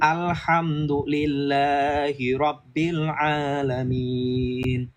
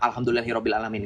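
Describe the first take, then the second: First: Long vowels are held and letters clearly articulated. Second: Vowels are cut short and letters loosely articulated. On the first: The speaker calls it right. "kamu baca yang benar" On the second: The speaker calls it wrong. "Gak ada makhrajnya, gak ada panjang pendeknya"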